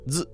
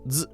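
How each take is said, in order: First: The z is sharp, with airflow cut off. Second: The z is sharp, with airflow cut off.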